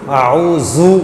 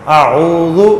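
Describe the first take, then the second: The two takes are said the same way.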